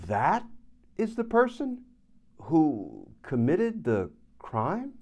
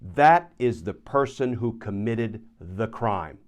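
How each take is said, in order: First: It is said in an uncertain, doubtful tone. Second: It is said in a certain, definitive tone. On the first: "with a different affect, tone, inflection, demeanor" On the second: "pretty powerful, pretty convincing, pretty definitive"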